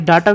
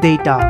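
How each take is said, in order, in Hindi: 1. पहला स्वर 'ah' ध्वनि है। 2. पहला स्वर 'ay' ध्वनि है। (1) "बट ये गलत है" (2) "असल में ये डाटा ना होके इट्स डेटा"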